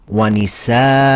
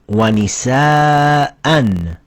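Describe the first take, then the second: First: The word ends in a long a vowel. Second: The word ends in an an sound. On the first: The reader is stopping on this word. "read it with one fatha" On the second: The reader continues without stopping. "The last word has two fathas"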